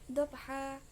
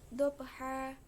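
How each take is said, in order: Both takes have the same delivery.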